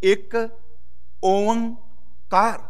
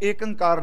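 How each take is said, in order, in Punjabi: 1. ਇਹ 'ik' ਅਤੇ 'oankar' ਨਾਲ ਉਚਾਰਿਆ ਜਾਂਦਾ ਹੈ। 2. ਇਹ 'ek' ਅਤੇ 'ankar' ਨਾਲ ਉਚਾਰਿਆ ਜਾਂਦਾ ਹੈ। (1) "ਇੱਥੇ ਅਸੀਂ ਓਂਕਾਰ ਪੜ੍ਹਨਾ" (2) "ਏਕ ਅੰਕਾਰ ਨਹੀਂ ਪੜ੍ਹਨਾ"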